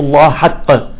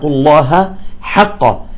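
First: The h is merged into the following ḥ. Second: The h is kept distinct from the following ḥ. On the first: The speaker calls it wrong. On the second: The speaker calls it right.

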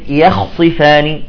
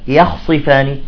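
No difference in how they are said.

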